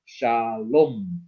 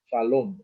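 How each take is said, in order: First: SHALOM drawn out as SHA ... LOOHM; long O vowel. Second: Said in the usual way. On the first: Shown as a demonstration. Teacher showing the O vowel, slowly drawn out. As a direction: stretch both syllables of "shalom", holding the O. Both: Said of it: "so this is the O vowel".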